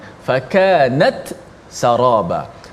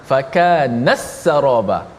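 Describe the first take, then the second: First: The t is released clearly before the s. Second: The t is absorbed into the following s. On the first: This follows the original recitation of this reading. "membaca dengan izhar. Maksudnya dijelaskan ta mati" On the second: This follows a different accepted reading. "Itu idgham"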